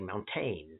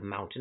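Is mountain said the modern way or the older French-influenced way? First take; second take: French-influenced; modern. First: It is pronounced an older, French-influenced way. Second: It is pronounced the ordinary modern English way. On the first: "pronouncing words in a historical way. A lot of it is more influenced by French" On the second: "Instead of"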